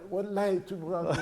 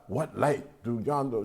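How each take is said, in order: First: It is said like an eager, curious teenager. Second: It is said like formal poetic recitation.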